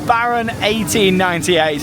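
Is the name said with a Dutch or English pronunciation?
English. The name is said with English pronunciation.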